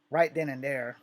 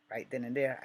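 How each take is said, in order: First: Punchy emphasis. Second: Said in the usual way. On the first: Real, not acted. Build-up to the confrontation.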